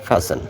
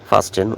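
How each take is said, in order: First: No t sound is heard in the middle. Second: A t sound is heard in the middle. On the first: The speaker calls it right. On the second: The speaker calls it wrong.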